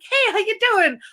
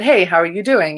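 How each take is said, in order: First: It is acted out in a character voice. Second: It is said plainly, as narration.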